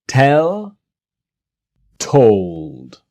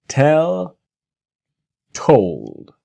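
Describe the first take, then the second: Both takes have the same delivery.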